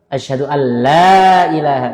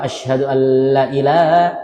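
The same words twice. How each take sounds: First: The vowel after the L is held long. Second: The vowel after the L is cut short. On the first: There is no god but God. The speaker calls it right. "Aku bersaksi tiada Tuhan selain Allah" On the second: There is truly a god besides God. The speaker calls it wrong. "aku bersaksi bahwasanya benar-benar Tuhan selain Allah"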